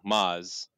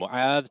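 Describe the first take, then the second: First: The name is said in one syllable. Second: The name is said in two syllables. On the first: This is a simplified everyday form of the name. "just because that's simpler" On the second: This is the original Arabic form of the name. "Arabs go by Mu'ad"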